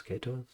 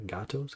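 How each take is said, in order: First: Gatos with an "ay", GAY-tose; tentative pronunciation. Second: Gatos with an "ah", GAH-tose; tentative pronunciation. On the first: Reader unsure of the town name Gatos, said GAY-tohs. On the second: Reader trying out the town name Gatos, said GAH-tohs. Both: Shown as a demonstration. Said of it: "I guess, Gatos, Gatos?".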